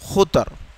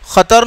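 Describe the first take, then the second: First: The first vowel is a 'u' sound. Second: The first vowel is an 'a' sound. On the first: The speaker calls it right. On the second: The speaker calls it wrong. "खतर नहीं"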